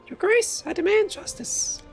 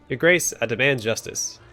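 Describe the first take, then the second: First: It is read in a high-pitched voice. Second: It is read in a normal speaking voice.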